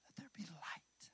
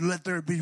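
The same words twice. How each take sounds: First: Whispered Let there be light, much softer; hushed unvoiced whisper. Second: Booming God. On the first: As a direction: breathe the words as a secret. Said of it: "what if it was just". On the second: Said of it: "And God said". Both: Shown as a demonstration.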